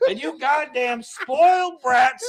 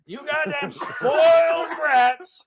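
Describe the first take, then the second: First: Put-on slow, furious old man yell; angry boomer yell. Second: Put-on slower, higher furious old man yell; angry boomer yell. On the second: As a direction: stretch it out like a ranting boomer. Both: Boomer yelling at youth.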